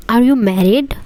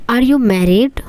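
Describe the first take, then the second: No difference in how they are said.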